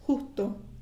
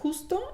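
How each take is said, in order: First: The S in the middle is dropped. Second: The S in the middle is clearly pronounced. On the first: "a dropped S in the middle of a word" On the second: "it's not justo"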